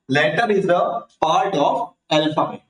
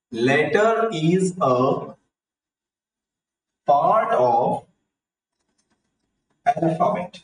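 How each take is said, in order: First: Definition repeated in measured phrases, short pauses; measured recap. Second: Very slow, long pauses between word groups; slow dictation. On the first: Teacher repeating the definition for children, measured recap. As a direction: say it deliberately, with only brief breaks. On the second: Teacher giving children the definition of letter, slow dictation. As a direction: dictate it piece by piece, drawn out. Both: Shown as a demonstration.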